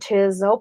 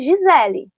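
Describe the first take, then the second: First: The name is said with an English accent. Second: The name is said with a Portuguese accent. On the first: It plays with the name for English learners. "para eles entenderem que tem uma outra pronúncia" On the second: It is how the name is really used. "falo meu nome Gisele"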